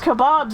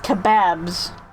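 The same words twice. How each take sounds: First: It is said in the speaker's usual, non-British way. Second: It is said imitating a British pronunciation.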